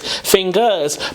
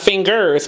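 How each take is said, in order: First: The final R is dropped. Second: The final R is clearly pronounced. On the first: The speaker calls it right. "There's really no R" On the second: The speaker calls it wrong. "It's not fingers"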